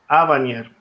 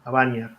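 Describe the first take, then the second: First: The stress is on the antepenultimate syllable. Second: The stress is on the penultimate syllable. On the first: The speaker calls it wrong. "Normalmente podría decir Abanier" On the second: The speaker calls it right. "como la penúltima es larga, se pone el acento ahí"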